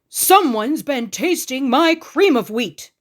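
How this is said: It is said in a great big voice.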